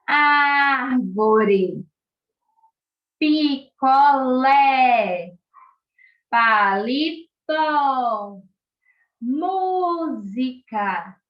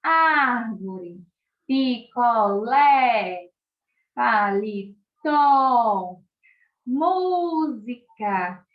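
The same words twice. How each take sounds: First: Slow, loud, drawn-out open vowels on Árvore, picolé, palito, música. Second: Drawn-out open vowels, picolé and música very slow. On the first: Teacher drawing out open vowels for the children. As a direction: stretch each word with the mouth wide open. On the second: Teacher repeats the words with open mouth. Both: Shown as a demonstration. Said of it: "minha boquinha mais aberta".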